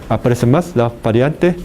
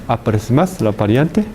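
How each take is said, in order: Both takes have the same delivery.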